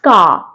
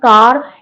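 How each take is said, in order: First: The final R sound is silent. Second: The final R sound is pronounced. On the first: The speaker calls it right. "if there is R at the end of the word, it is silent" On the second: The speaker calls it wrong. "not car"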